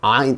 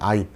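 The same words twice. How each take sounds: First: It starts with a strained sound from the throat. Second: It starts plainly, without throat strain. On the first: "목에다가 이렇게 힘을 줘서 아" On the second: "그냥 아인 하시면 됩니다"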